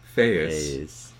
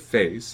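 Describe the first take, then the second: First: A glottal stop splits the vowel into two syllables. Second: The vowel glides smoothly within one syllable. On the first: "I may have intruded a glottal stop in there" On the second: "when I say face"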